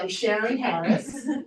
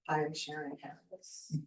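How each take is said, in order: First: It is said with lively, high energy. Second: It is said with flat, low energy. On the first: The speaker calls it right. "So your delivery has a lot to do with" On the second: The speaker calls it wrong. "How's that energy?"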